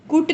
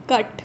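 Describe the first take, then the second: First: कुट with a long oo like boot; wrong reading kut. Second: कट with a short uh vowel; correct reading cut. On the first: Teacher shows the wrong reading कुट. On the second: Teacher gives the right reading कट. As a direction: say कट with a short uh sound. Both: Shown as a demonstration. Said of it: "कुट नहीं है ये".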